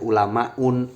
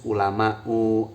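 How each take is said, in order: First: The word ends with an added n sound. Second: The word ends in a plain u sound. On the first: The speaker calls it wrong. "Membacanya tidak boleh ulamaun" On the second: The speaker calls it right. "Membacanya harus ulama'u"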